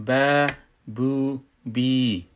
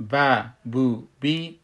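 First: ب، بو، بی stretched very slowly, louder; long syllables. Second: ب، بو، بی said short, one beat each; short syllables. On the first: Teacher now stretches ب، بو، بی slow and loud. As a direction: draw out بو and بی for two beats. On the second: Teacher shows the old short ب، بو، بی. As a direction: clip ب، بو، بی quickly. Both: Shown as a demonstration.

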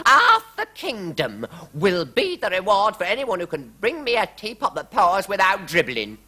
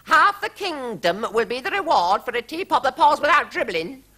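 First: High, loud royal decree; queen proclaiming. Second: High, rising royal decree; queen's proclamation quoted. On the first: Queen announcing a reward to the court, high proclamation. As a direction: declare the reward grandly. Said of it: "cried the Queen". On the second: Narrator quoting the queen's reward, high queenly voice. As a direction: repeat her decree grandly. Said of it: "the Queen said". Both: A narrator's reading.

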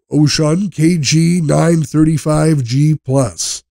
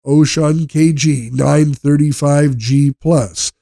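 No difference in how they are said.

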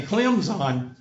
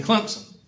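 First: "Clemson" slowly as "Clem-zine"; mock the announcers' "Clemson", no P, Z sound; announcer's Clemson. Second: "Clemson" as "Clemp-sun". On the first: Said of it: "They sound more stupid saying Clemson". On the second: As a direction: put the P back into "Clemson". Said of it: "than they do saying Clemson". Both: Shown as a demonstration.

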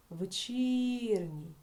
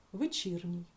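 First: "Вечірній" slowed right down on a drawn-out І; stress on І. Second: Said in the usual way. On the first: Shown as a demonstration. Teacher shows where the stress falls, long stretched І in "Вечірній". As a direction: hold the І in "Вечірній" very long, pitched up. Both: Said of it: "наголос падає на звук і".

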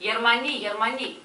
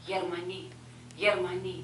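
First: Loud, high shouted warning; alarm cry. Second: Loud shouted warning, growing; alarm cry. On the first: Villager screaming that Germans are coming, loud and high. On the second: Villager warning the yard of Germans, loud. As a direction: cry the alarm louder each time. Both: A narrator's reading.

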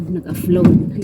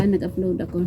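First: Nag-upload with F, naguflod. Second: Said in the usual way. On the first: Retold or imitated. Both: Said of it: "Ginawang F ang P".

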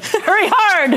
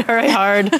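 First: Sharp higher sweep call; curling skip yelling. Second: Said in the usual way. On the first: Pretend. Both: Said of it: "I was confusing it with curling".

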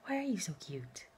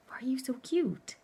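First: Whispered coo. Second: High, sing-song cooing question. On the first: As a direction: whisper it lovingly to the dog. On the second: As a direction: coo it up high at the dog. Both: Real, not acted. Cooing over her dog.

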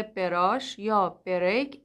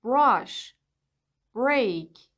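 First: براش said as be-rash with an extra vowel; بریک split as be-rek, not one cluster; wrong vowel inserted. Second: براش said as brash, b and r together; بریک said as brek, no vowel between; correct cluster. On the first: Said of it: "اشتباهه". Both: Shown as a demonstration.

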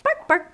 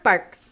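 First: Happy barks. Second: One loud short dog bark; a single happy bark. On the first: Harry barking happily by the hole, short high barks. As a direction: bark short and happy like a dog. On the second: Harry finishing his happy barks, a loud single bark. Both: Acted. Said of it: "barking short, happy barks".

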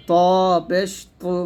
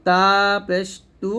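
First: ত পেশ তু with dark full-mouthed t; thick heavy tu. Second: তা পেশ তু with light dental t; thin light tu. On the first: Teacher drilling the contrast, thick tu. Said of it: "মোটা করে". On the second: Teacher drilling the contrast, thin tu. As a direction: keep তু thin at the teeth. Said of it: "পাতলা করে". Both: Shown as a demonstration.

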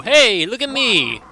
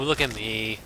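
First: High, loud attention-grabbing call. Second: Low, soft, falling away; subdued repeat. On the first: Player calling for attention in game, high loud call. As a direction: call out high, punching the hey. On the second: Player echoing the earlier call, low and subdued. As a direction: let it sink low and quiet. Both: Acted.

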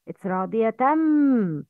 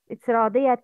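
First: رَاضِيَةً said radiyatam, n merged into m with a nasal hum; idgham with ghunna. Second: رَاضِيَةً ending on a clear tan sound; tanween pronounced. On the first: Teacher demonstrates idgham with ghunna before مَرْضِيَّةً. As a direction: blend the tanween of رَاضِيَةً into the m and hold the nasal. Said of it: "idgham between the sound of tanween and the sound of mim". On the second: Teacher shows the unmerged tanween. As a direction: finish رَاضِيَةً with a plain n. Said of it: "tan, tan". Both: Shown as a demonstration.

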